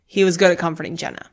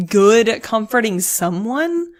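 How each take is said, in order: First: Quicker phrase, settling down on "Jenna"; contrast on Jenna. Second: "good at comforting someone" drawn out slowly, lifted; stress on someone. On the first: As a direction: land "Jenna" as the specific case, falling. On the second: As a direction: stretch "good" and "someone" as the general case. Contrasts someone with Jenna. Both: Real, not acted.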